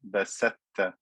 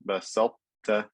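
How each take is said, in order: First: The emphatic t fully merges into the plain t. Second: The emphatic quality of the first t remains. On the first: The speaker calls it wrong. "If I did complete idgham, this would sound like" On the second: The speaker calls it right. "I have to keep that sifa of itbaq"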